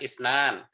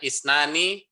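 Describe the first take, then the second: First: The word ends on a consonant, vowel dropped. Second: The word ends with a final vowel sound.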